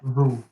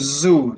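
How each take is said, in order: First: The word begins with a soft th sound. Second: The word begins with a buzzing z sound. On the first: The speaker calls it right. "it's more like a th than a z" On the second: The speaker calls it wrong. "try to avoid saying zoo. There's no there's no z sound"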